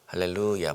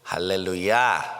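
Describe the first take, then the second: First: The last syllable is not stressed. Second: The stress is on the last syllable.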